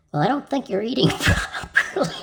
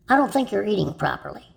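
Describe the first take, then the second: First: Higher pitch, laughter spilling into the punchline; breaking up laughing. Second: Said in the usual way. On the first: Real, not acted. Comedian delivers a doctor's punchline to the audience, cracking up. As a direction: try to say it and crack up. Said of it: "Can't help it". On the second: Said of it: "Take two".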